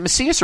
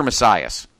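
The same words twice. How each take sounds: First: Macias with SEE in the middle; alternative pronunciation. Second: Messias with SIGH in the middle; alternative pronunciation. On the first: Host asking how the wrestler's name goes, Macias as muh-SEE-us. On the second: Host offering the other reading, Messias as muh-SIGH-us. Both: Shown as a demonstration. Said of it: "I always pronounced it as Messias".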